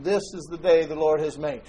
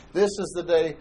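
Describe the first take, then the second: First: Day lifted as the peak of the phrase; stress on day. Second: "This" hit first and strongest, "is the day" lighter; stress on this. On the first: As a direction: lean on "day" and let "This is the" lead into it. Quoting scripture, stress on day. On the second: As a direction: punch "This" to point at today. Repeats it, stress moves to this. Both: Acted.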